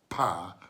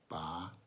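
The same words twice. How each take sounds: First: The p is released with a strong puff. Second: The p is released softly without a puff. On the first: The speaker calls it wrong. "instead of pa, pe, pi. We don't do that in Spanish" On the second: The speaker calls it right. "We do pa, pe, pi, po, pu"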